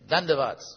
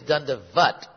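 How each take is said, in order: First: The word ends with an s sound. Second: The word ends with a t sound. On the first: "nowadays also the custom at times not to do it, just to say it" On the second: "Actually, it's dandavat"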